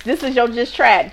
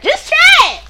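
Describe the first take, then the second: First: Said in the usual way. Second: Very high, loud cheer; high-pitched excited call; excited catchphrase. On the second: Pretend. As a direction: shoot it up high like a jingle tag. Repeats segment name as catchphrase.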